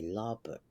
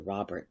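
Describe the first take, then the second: First: The name begins with an L sound. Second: The name begins with an R sound. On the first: "they'd say Lawbert" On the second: "they wouldn't say Robert"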